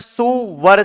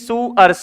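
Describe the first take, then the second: First: A v sound joins the two syllables. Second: The two syllables join with no v sound. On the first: It would mean a good bridegroom. The speaker calls it wrong. "सु यानी अच्छा और वर यानी बीन" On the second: It means pig. The speaker calls it right. "नहीं सुअर से"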